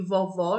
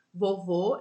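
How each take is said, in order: First: "vovó" with a wide, open final O, a bit louder; open final vowel. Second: "Vovô" with a closed, rounded final O; closed final vowel. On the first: Teacher contrasting for pupils the open O, a little louder. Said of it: "quando eu falo vovó". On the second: Teacher showing pupils the closed O, clear and careful. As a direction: say "Vovô" with the last O shut tight. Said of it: "quando eu falo vovô". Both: Shown as a demonstration.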